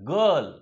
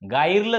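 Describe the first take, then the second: First: The vowel is a short uh sound. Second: The vowel sounds like eye in fire. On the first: The speaker calls it right. "फक्त अ" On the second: The speaker calls it wrong. "गायरलं झालं का? नाही"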